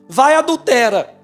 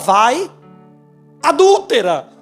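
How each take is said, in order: First: The stress falls on the third syllable. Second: The stress falls on the second syllable. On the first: It tells someone to go commit adultery. The speaker calls it wrong. "leu errado" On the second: It addresses a woman who committed adultery. The speaker calls it right. "Mas era vai, adúltera. Não é adultera"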